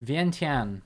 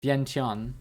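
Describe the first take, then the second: First: "Vientiane" in four syllables, vee-en-tee-ahn; British pronunciation. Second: "Vientiane" squeezed into two syllables, vyen-tahn; American pronunciation. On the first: Reading the Google British version aloud, four-syllable pronunciation. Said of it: "The British has four". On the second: Trying the Google American version, two-syllable pronunciation. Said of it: "The American pronunciation on Google has two syllables". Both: Shown as a demonstration.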